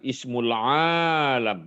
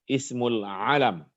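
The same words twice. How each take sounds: First: The first vowel of alam is drawn out long. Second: The first vowel of alam is kept short. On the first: The speaker calls it wrong. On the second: The speaker calls it right.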